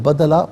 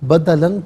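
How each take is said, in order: First: The word ends in a long a sound. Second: The word ends with an -an sound. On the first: The reader stops at this word. "वफ़ की सूरत में ... तो बदला पढ़ा जाएगा" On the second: The reading continues without stopping. "बदलन पढ़ेंगे"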